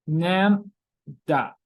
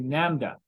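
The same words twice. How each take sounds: First: "Lambda" split into two slow syllables with a clear gap; teacher sounding out "Lambda" in pieces. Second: Said in the usual way. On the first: Shown as a demonstration. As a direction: say "Lambda" in two separate, drawn-out beats. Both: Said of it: "this is pronounced like a lambda".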